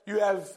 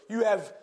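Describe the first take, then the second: No difference in how they are said.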